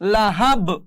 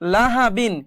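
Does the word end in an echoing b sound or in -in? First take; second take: echoing b; -in. First: The word stops on a b with an echoing bounce. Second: The word runs on, ending in -in. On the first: The reader stops at this word. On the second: The reading continues without stopping.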